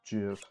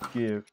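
First: The word starts with a j sound. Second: The word starts with a hard g sound. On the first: This is how the creator says it. "the guy who developed it said it's called GIF. So that's how I pronounce it" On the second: This is how most people say it. "everyone pronounced it as GIF because there's a G at the beginning"

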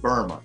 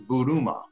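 First: The name is said like 'Burma'. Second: The name is said like 'Buruma'. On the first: The speaker calls it wrong. "I was saying Burma" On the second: The speaker calls it right. "but it's actually Buruma"

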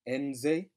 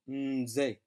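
First: The N is pronounced separately before the rest. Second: The N is blended smoothly into the rest. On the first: The speaker calls it wrong. "don't be tempted to pronounce that N by itself, as in nze" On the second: The speaker calls it right. "but to bleed into it as though you're saying in"

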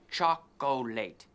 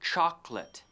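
First: The word is said with more than two syllables. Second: The word is said with two syllables. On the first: The speaker calls it wrong. "We don't say chocolate" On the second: The speaker calls it right. "in English we say chocolate"

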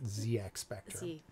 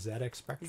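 First: The letter Z is said as 'zee'. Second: The letter Z is said as 'zed'. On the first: The computer is American. "If it was a computer from the U.S., I would pronounce it ZX Spectrum" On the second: The computer is British. "It's British. Pronounce it the correct way"

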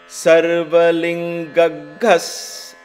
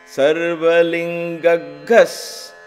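The two takes are said the same way.

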